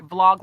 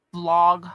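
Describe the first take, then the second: First: "vlog" said with a clear V at the start; corrected word. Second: "blog" said with a plain B, not a V; first try at the word, "blog" with B; wrong word. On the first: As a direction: fix it to "vlog", V sound first. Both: Shown as a demonstration. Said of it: "I'm gonna say I'm saying that right".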